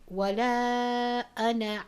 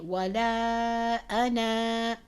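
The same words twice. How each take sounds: First: The final vowel is short, running into the next word. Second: The final vowel is held long for two counts. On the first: The reciter continues without stopping. "If we continue to recite, we don't pronounce that alif" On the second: The reciter stops on this word. "read that alif for two counts"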